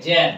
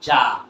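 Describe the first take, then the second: First: "জ্যাম" with a front "æ" vowel; jam with "æ". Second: "জাম" with an open "ah", louder; jam with "ah". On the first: Teacher shows what not to say, "জ্যাম" with "æ". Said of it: "জ্যাম না বলে". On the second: Teacher answers what we should say, "জাম" with loud "ah". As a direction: land firmly on "জাম" with a broad "ah". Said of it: "আমরা কি বলবো". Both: Shown as a demonstration.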